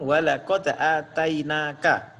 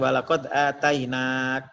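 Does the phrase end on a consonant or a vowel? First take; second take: vowel; consonant. First: The final syllable keeps its short vowel. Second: The final vowel is dropped, ending on k. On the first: The reader is about to continue to the next phrase. The speaker calls it right. "yang saya talkinkan walaqad atainaka" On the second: The reader is stopping at this point. The speaker calls it wrong. "bukan walaqad atainak"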